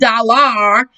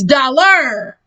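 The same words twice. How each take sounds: First: The last syllable sounds like 'ar'. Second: The last syllable sounds like 'er'. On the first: The speaker calls it wrong. "It's not dollar" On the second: The speaker calls it right. "It's dollar. Er"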